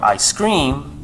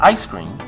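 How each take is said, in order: First: The stress is on the second word. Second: The stress is on the first word. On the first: Someone is screaming. "the stress comes in the word scream" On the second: The frozen dessert is meant. "you put the stress on the I"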